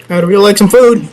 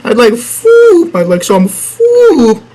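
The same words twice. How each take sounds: First: Said in the usual way. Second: High, slow whine on "food"; a stretched, high "I'd like food"; mock plea. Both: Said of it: "begging for food".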